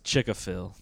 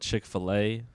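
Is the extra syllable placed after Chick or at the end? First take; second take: after Chick; at end. First: The extra syllable comes right after Chick. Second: The extra syllable comes at the very end. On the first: The speaker calls it wrong. "My grandma says Chick-a-fil" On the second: The speaker calls it right. "instead of Chick-fil-A"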